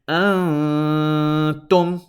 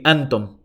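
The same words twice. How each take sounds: First: The n sound is held long through the nose. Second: The n sound is short, without nasal hold. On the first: The speaker calls it right. "what is correct?" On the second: The speaker calls it wrong. "I did not hold that noon sound in my nose"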